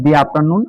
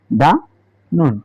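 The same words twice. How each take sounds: First: দি before after নুন, with an ee vowel; 'the' as দি. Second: দা before নুন, with an open uh/ah vowel; 'the' as দা. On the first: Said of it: "শুরুতে যদি ভাওয়াল থাকে". (আফটার নুনের আগে দি, ই-ধ্বনি দিয়ে) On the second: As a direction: say দা নুন, no ee sound in দা. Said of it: "দি না বলে". (নুনের আগে দা, আ-ধ্বনি দিয়ে) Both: Shown as a demonstration.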